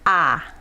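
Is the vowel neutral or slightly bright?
slightly bright. The vowel leans slightly toward the bright side. "The Japanese ah, it's a little leaning towards bright"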